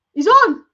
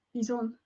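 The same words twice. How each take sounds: First: Loud, higher triumphant call; triumphant shout. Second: Muttered. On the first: Fan sure the goal stands shouts it out, triumphant. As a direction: shout it like the verdict is in. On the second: Fan checking the replay mutters to himself, quiet. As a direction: say it under your breath to yourself. Fan insisting goal is onside. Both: Real, not acted.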